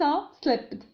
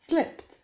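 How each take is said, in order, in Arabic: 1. تُنطق النهاية بصوت د. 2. تُنطق النهاية بصوت ت. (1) "ليس slipped" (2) "بل slipped"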